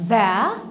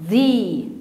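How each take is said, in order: First: The word ends in a short 'uh' vowel. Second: The word ends in a long 'ee' vowel. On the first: "انا هنطقها ذا" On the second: "النطق التاني هننطقه ذي"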